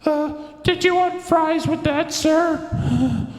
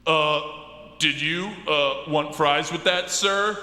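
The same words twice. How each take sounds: First: Much higher, louder cashier voice; squeaky fast food worker. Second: Fast food worker voice. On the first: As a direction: pitch way up like a nervous cashier. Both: Acted. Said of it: "maybe the voice for that guy's really a little bit more something like this".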